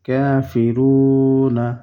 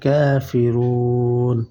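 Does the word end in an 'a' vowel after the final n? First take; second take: yes; no. First: The word ends with an 'a' vowel after n. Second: The word ends on n with no vowel. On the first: The reading continues without stopping. "নুন জবর না কাফিরুনা" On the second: The reader stops at this word. "যখন এখানে ওয়াকফ করবেন তখন এই নুন সাকিন হয়ে যাবে"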